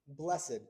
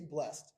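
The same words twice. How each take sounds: First: The word is said in its special Bible form. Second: The word is said in its everyday form. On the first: This is how the word is read in scripture. "this is a funny word that we see over and over" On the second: This is how the word is said in normal speech. "Normally we say blessed"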